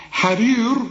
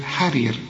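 First: "حرير" wrongly ending in a dark, rounded r; heavy final r. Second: "حرير" with clear ee and thin r; light final r. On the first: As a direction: darken the end of "حرير" as a mistake. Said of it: "هتقول إيه؟". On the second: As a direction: end "حرير" lightly, falling. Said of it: "رقق". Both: Shown as a demonstration.

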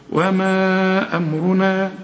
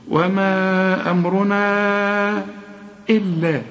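First: Slow, with أمرنا split in two then joined. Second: Slow chanted recitation, long stretched vowel; chanted, draw out the madd of وما over four counts in recitation. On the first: Teacher showing how to split then join a word. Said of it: "افصلها نصين كده". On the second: Teacher chanting the verse with a long madd. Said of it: "لازم تمد أربع حركات". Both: Shown as a demonstration.

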